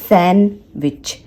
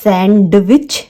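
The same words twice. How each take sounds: First: The d sound is left silent. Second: The d sound is clearly pronounced. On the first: The speaker calls it right. "जो इस word का जो pronunciation होता है" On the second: The speaker calls it wrong. "सैंडविच नहीं होता है"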